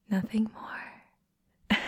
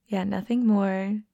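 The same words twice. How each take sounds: First: "Nothing more" whispered slowly, rising. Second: Said in the usual way. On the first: Acted. Telling a shy friend they are just friends, slow whisper. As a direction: tease it out in a hush.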